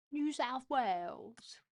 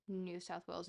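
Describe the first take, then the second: First: Slow, higher New South Wales accent; exaggerated Australian accent. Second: Said in the usual way. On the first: Shown as a demonstration. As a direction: stretch it out in a put-on Australian accent. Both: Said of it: "he doesn't say it like that".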